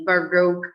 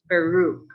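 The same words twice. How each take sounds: First: It is said with an American accent. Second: It is said with a British accent. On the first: "supposed to be baroque in American language" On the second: "also for British baroque"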